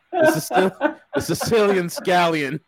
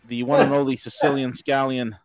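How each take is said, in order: First: Giggling through the words; laughing. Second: Said in the usual way. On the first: Real, not acted. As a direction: crack up mid-name. Laughs through the guest's nickname.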